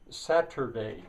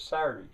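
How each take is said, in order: First: The middle T sound is clearly pronounced. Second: The middle T sound is left out entirely. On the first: "Saturday in standard English" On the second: "the T is simply left out. It's not a glottal stop"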